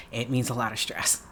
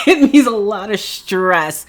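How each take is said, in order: First: Softer, flat statement; quiet aside. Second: Louder and higher, stress on means; emphatic repeat. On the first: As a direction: say it under your breath. Answers, then repeats louder after laugh. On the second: Repeating to the viewers that it means stress, louder. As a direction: hit it again, bigger. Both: Real, not acted.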